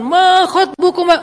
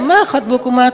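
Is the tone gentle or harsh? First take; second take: harsh; gentle. First: It is said in a loud, preaching tone. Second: It is said in a soft, gentle tone.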